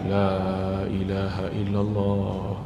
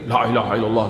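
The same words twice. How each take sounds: First: It is said calmly and unhurried. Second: It is said hurriedly, without calm.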